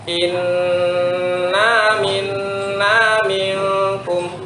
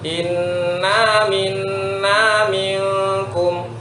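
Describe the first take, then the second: First: The nasal hum on inna is held longer. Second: The nasal hums are equal in length throughout. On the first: The speaker calls it wrong. "Inna itu terlalu lama dengungnya dibandingkan yang selanjutnya" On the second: The speaker calls it right. "Satu dengungnya konsisten"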